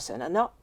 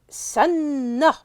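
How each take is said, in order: First: A vowel separates the two n sounds. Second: The two n sounds merge into one long n. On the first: The speaker calls it wrong. "difficile à prononcer en arabe" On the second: The speaker calls it right. "le verbe sanna"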